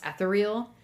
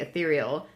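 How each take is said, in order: First: It is pronounced as guessed from the spelling. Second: It is pronounced the usual spoken way. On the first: The speaker calls it wrong. "I thought the word ethereal was pronounced ethereal because I had only read it" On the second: The speaker calls it right. "I heard it in real life somebody say ethereal"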